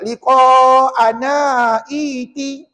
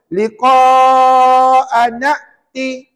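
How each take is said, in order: First: An extra 'i' vowel is sounded before 'ti'. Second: The words join with a stopped hamzah, no extra vowel. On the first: The speaker calls it wrong. "jangan pula liqa'ana iti. Ha, salah puan-puan" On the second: The speaker calls it right. "Bila sambung, sekali lagi dengar molek-molek"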